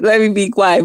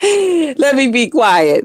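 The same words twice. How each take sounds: First: Said in the usual way. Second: Laughing to herself. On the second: Real, not acted.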